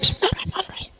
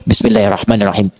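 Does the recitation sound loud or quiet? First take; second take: quiet; loud. First: It is recited softly and thinly. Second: It is soft but close, sounding loud. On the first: The opening verse is recited silently. "Sir, silent, tipis" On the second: A silent recitation amplified becomes effectively aloud. "Ini silent, sir, tapi ditempelkan ke mic. Itu sama dengan jahar"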